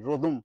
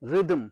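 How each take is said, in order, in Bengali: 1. প্রথম স্বরধ্বনিটি 'o'-র মতো শোনায়। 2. প্রথম স্বরধ্বনিটি ছোট 'i'-র মতো শোনায়। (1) "রোদমও শুনেছি ... ভয়ঙ্কর ইংরেজি উচ্চারণ"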